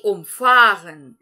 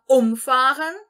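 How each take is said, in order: First: Umfahren with FAHR stressed, slow and loud. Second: Umfahren with UM stressed. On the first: Teacher contrasts the two verbs, FAHR stressed. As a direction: lean on the second syllable FAHR. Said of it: "entonar a segunda sílaba do verbo". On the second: Teacher contrasts the two verbs, UM stressed. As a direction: lean on UM in umfahren. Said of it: "entonar a sílaba, a primeira sílaba". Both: Shown as a demonstration.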